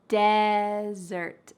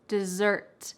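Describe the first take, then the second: First: The stress is on the first syllable. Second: The stress is on the second syllable. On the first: A hot, dry, sandy place. "There's emphasis at the beginning" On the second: Something sweet eaten after a meal. "There is emphasis on the second syllable"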